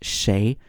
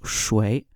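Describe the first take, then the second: First: The word is said with a 'shay' sound. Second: The word is said with a 'shway' sound. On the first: This is the common everyday pronunciation. "in common speech now, a lot of people will pronounce this shay" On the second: This is the traditional pronunciation. "traditionally this was pronounced shui"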